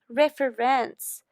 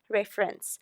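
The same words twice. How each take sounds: First: The final suffix is said with extra emphasis. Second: The final suffix is said without extra emphasis. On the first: The speaker calls it wrong. "I'm just trying to emphasize the suffix" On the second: The speaker calls it right. "No, you say"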